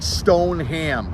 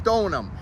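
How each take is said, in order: First: The last syllable is a full 'ham'. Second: The last syllable is a reduced 'um'. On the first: The speaker calls it wrong. "It's not stone ham" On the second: The speaker calls it right. "It's Stonum. ... Just take the H A out of there"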